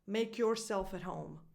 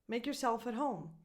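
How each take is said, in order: First: Both parts of yourself are fully and slowly pronounced. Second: The first part of yourself is reduced and quick. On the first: The speaker calls it wrong. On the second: The speaker calls it right.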